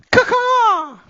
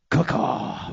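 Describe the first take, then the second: First: Loud high squawking raven caw. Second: Breathy voiceless raven croak; raspy raven caw. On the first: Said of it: "Best Raven I got there". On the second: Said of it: "that better? ... more intimidating?". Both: Pretend.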